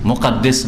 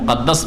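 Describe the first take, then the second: First: The last syllable has the vowel i. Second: The last syllable has the vowel a. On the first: The speaker calls it wrong. "মুকাদ্দিস নাই, কারণ আমাদের দেশের লোকেরা অনেকে বাইতুল মুকাদ্দিস বলে" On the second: The speaker calls it right. "হয় মুকাদ্দাস পড়েন"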